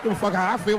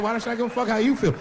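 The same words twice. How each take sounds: First: "I" leaned on as the contrast word; stress on I. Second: "you" leaned on, high, falling after it; stress on YOU. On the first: Comedian arguing about pronouns, stress on "I". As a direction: punch "I" against the coming "you". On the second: Comedian arguing about pronouns, stress on "you". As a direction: throw the weight onto "you". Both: Acted.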